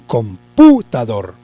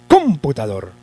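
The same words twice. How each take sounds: First: The stress is on the second syllable. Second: The stress is on the first syllable. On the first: "lo vamos a correr un poquito más" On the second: "Vamos a suponer que lo lleva en la sílaba com"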